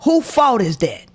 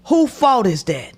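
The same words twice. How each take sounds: The two takes are said the same way.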